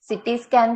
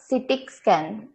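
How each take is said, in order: First: The first word ends cleanly in an ee sound. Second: The first word ends with an added k sound. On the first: The speaker calls it right. "सिटी scan को" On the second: The speaker calls it wrong. "वो सिटिक scan बोल रही है"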